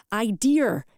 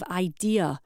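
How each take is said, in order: First: "idea" ending in a sounded r, "eye-DEER"; idea with added R. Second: Said in the usual way. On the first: Shown as a demonstration. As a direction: say "idea" as "idear", with an r on the end. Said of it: "idea instead of idea". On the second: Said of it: "instead of idea".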